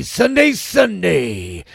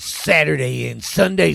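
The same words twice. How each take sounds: First: Monster-truck promo. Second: Said in the usual way. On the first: Acted. Motocross ad hype.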